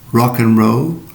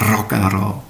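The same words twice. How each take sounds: First: The R is smooth, with no tongue trill. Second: The R is trilled with a vibrating tongue. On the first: The speaker calls it right. "the English rolled R as opposed to the trilled R" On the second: The speaker calls it wrong. "And not the Indonesian trilled R"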